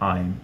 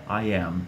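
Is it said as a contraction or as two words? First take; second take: contraction; two words. First: It is said as one short contracted syllable. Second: It is said as two full separate words. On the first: "a vida é muito curta para você falar I am, então você fala I'm" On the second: "Então você tem I am"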